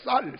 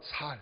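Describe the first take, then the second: First: The word begins with a tense s sound. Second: The word begins with a plain s sound. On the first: This is the standard pronunciation. "쌀 그러지 못해요" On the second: This is how Gyeongsang speakers say it. "경상도 사람들은 꼭 어떤 거가 살"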